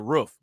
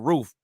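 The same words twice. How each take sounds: First: The word sounds like a dog's bark. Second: The word is said in a plain, ordinary way. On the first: "Like I say roof. ... Like a damn dog" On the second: "instead of saying roof"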